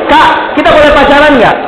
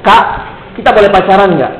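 First: Higher-pitched imitation of a schoolboy asking; acted schoolboy question, pitched up; kid's question. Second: Put-on small kid asking, understated; lightly voiced schoolboy question; kid's question. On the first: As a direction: mimic a kid piping up with a question. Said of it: "Dia nanya gitu". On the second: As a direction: ask it tentatively in your own pitch. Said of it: "Tiba-tiba ngomong begini".

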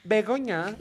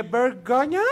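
First: Said in the usual way. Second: Bergoña with an added r, rising, louder; mispronounced name. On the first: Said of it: "Y la vieja". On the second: Retold or imitated. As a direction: say Bergoña as a confused gringo would. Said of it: "Y le dije". (pronunciando mal Bergoña con una r de más)

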